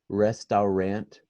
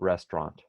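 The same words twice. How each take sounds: First: The word is said following its written letters. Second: The word is said in a shortened, reduced form. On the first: The speaker calls it wrong. "Parece restaurant" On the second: The speaker calls it right. "mas a gente fala restaurant"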